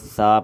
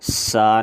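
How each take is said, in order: First: The s sound is soft without whistling. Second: The s sound has a sharp whistling hiss. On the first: The speaker calls it right. "बल्कि सा पढ़ेंगे" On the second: The speaker calls it wrong. "सीटी की आवाज़ नहीं निकालेंगे, सा नहीं पढ़ेंगे"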